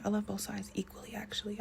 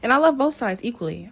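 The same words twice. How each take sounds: First: Hushed, much softer whisper; whispered aside. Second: Said in the usual way. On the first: Real, not acted. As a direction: drop to a confiding whisper. Repeats the claim as whispered aside.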